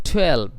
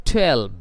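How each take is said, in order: No difference in how they are said.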